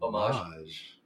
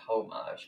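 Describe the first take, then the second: First: The initial H is silent. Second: The initial H is pronounced. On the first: The speaker calls it right. "Like the H is kind of silent" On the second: The speaker calls it wrong. "Not homage"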